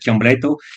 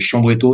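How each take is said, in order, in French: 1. Il se prononce avec un accent italien et un r roulé. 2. Il se prononce avec un accent français. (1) "avec l'accent roulant à la langue" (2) "tu le prononces à la française"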